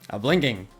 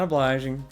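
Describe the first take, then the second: First: The word is said like 'a blinking'. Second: The word is said like 'o-bly-jing'. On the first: The speaker calls it wrong. "Of all things that my brain could come up with, with these letters" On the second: The speaker calls it right. "it took until those classes for me to realize that it was obliging"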